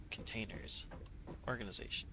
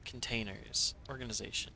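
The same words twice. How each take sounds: The two takes are said the same way.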